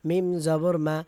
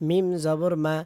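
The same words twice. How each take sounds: Both takes have the same delivery.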